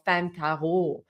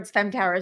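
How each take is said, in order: First: The name is pronounced with French sounds. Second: The name is pronounced with English sounds. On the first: "So I always called myself femme tarot" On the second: "all the English speakers were like"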